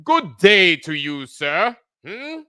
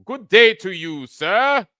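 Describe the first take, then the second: First: Put-on slow, drawn-out mid-Atlantic accent greeting; an unhurried mid-Atlantic accent with a change of voice; mock mid-Atlantic accent. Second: Put-on louder, higher mid-Atlantic accent greeting; a snooty mid-Atlantic accent, tossed off quickly; mock mid-Atlantic accent. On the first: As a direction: lean into a haughty mid-Atlantic accent, slowly. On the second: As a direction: ham up an old-timey mid-Atlantic accent. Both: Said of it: "with their mid-Atlantic accents".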